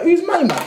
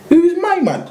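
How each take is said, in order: First: Much higher mock-baffled repeat; same disbelieving jab again; high scoffing who's this; incredulous. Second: Much higher, mock-baffled who's this; high incredulous challenge. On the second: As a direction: sneer it up in disbelief. Incredulous retort to the stranger.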